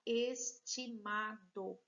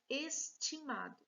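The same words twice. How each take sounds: First: ESTIMADO broken into es, ti, ma, do; syllable by syllable. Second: Said in the usual way. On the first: Shown as a demonstration. Teacher separating a word for pupils, syllable by syllable. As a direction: sound out "estimado" with a gap between syllables. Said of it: "Vamos separar". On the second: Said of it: "A próxima palavra que nós temos".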